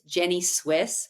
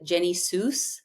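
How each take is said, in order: First: The name ends with the word Swiss. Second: The name ends with the word Seuss. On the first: "it's Jenny Swiss" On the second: "my brother calls it Jenny Seuss"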